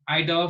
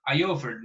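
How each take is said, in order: First: A clear D sound follows 'I'. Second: There is no D sound after 'I'. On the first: The speaker calls it right. "you have to make it sound because it's a D" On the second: The speaker calls it wrong. "It's not common to say I offered, no"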